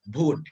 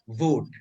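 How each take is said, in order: First: It is said with a Bengal/Bihar accent. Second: The v is made with lip and teeth.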